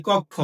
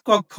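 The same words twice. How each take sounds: First: কক্ষ said "kokkho", rounded o; কক্ষ as "kokkho", first vowel like ও; o sound in কক্ষ. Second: কক্ষ said "kawkkho", open first vowel; কক্ষ as "kawkkho", not rounded to ও. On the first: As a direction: say কক্ষ with a closed o, "kok-kho". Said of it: "বলে আসছি শ্রেণী কক্ষ, not কক্ষ". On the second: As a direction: say কক্ষ with the open অ, "kawk-kho". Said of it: "not কক্ষ". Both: Shown as a demonstration.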